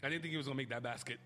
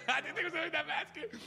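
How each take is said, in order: First: Said in the usual way. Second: Much higher and louder, incredulous; host repeats the line to listeners, now in loud amazed disbelief; excited disbelief. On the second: Real, not acted. Belt it out again, floored that he scored.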